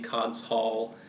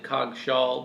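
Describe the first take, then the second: First: The ending is a full separate 'hall'. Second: The ending is reduced and run together. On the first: The speaker calls it right. "it actually is supposed to be Cogg's Hall" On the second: The speaker calls it wrong. "I usually say pronounce it Coggshall"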